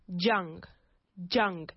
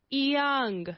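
First: The word begins with a J sound. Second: The word begins with a Y sound. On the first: The speaker calls it wrong. "they say jung" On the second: The speaker calls it right. "We need to treat it with the sound of an I"

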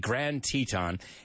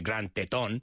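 First: Teton is given an English pronunciation. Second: Teton is given a Spanish pronunciation. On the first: It is the accepted name of the park. The speaker calls it right. "We say Grand Teton" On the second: It sounds like a crude Spanish word. The speaker calls it wrong. "Para que no suene tan mal, we don't say Grand Teton"

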